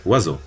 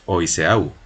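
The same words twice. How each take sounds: First: Oiseau said as French "wa-zo"; French pronunciation. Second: Oiseau sounded letter by letter in Spanish, "o-i-se-au"; read as spelled. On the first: Someone answers how to say bird in French, Oiseau pronounced "wazo". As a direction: say Oiseau in two syllables, "wa-ZO". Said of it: "cómo se dice pájaro en francés". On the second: Learner reads the written word without knowing French, Oiseau as "o-i-se-au". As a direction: misread Oiseau with every written vowel voiced, "o-i-se-au". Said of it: "Y entonces nosotros lo leeremos". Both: Shown as a demonstration.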